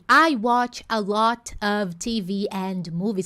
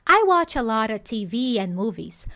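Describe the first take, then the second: First: The word 'and' is said in full. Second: The word 'and' is reduced to 'n'. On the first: "ao invés dessa expectativa" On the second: "esse and acabar virando N"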